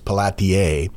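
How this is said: The name is said with French pronunciation.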